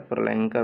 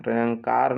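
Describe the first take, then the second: First: प्रलयंकर with a short a before the final r; correct pronunciation. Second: प्रलयंकार with a long aa before the final r, the wrong form; wrong pronunciation. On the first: Teacher giving students the right form: प्रलयंकर with a short a. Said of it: "प्रलयंकार नहीं होता है". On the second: Teacher showing students the wrong form: प्रलयंकार with a long aa. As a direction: stretch the last vowel in प्रलयंकार as the mistake. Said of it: "नहीं होता है". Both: Shown as a demonstration.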